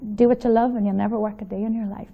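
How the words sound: It is said in a cool, sexy voice.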